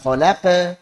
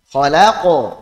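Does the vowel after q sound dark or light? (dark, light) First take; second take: light; dark. First: The vowel after q sounds light and open. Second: The vowel after q sounds dark and rounded. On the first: The speaker calls it wrong. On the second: The speaker calls it right.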